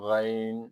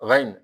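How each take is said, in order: First: The vowel in the word is drawn out. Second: The vowel in the word is short. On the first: The speaker calls it right. "थोड़ा लंबा करके" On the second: The speaker calls it wrong. "गैन ऐसे नहीं कहना"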